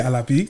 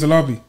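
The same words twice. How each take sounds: First: The surname is said with its original pronunciation. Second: The surname is said in a simplified English way. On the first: This is the name's true pronunciation. "But obviously you say Alabi. That's the way to say it" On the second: An easier version is offered for others. "I used to just say I'm [name]. That's how I'll say my surname"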